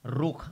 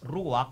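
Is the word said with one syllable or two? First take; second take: one; two. First: The word is said with one syllable. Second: The word is said with two syllables. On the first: This is the ancient Hebrew pronunciation. "if you pronounce it in a in a Hebrew Paleo Yehudiyat nga pamagi" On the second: This is how others commonly pronounce it. "uban i-pronounce na nila as Ruach"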